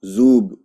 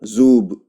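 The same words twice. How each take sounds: No difference in how they are said.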